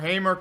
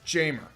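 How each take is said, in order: First: The name begins with an H sound. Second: The name begins with a J sound.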